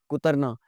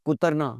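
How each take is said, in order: No difference in how they are said.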